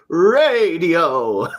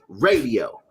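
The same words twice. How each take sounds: First: It is said theatrically, like a stage actor. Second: It is said plainly and naturally.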